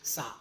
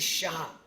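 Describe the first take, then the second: First: The name begins with a plain s sound. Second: The name begins with an sh sound. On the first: The speaker calls it wrong. "It's not Sa" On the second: The speaker calls it right. "It is Shah"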